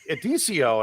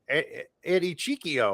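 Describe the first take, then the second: First: The name is shortened to Edicio. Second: The name is split as Eddie Chiquio. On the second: "Somebody will say like"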